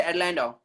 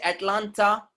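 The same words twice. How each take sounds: First: Atlanta softened to "at-LAN-do"; American pronunciation. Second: Atlanta with a clear second t, "at-LAHN-ta"; non-American pronunciation. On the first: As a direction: melt the second t of Atlanta. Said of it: "they say Atlanta". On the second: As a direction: articulate every t in Atlanta. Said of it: "They don't say Atlanta". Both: Shown as a demonstration.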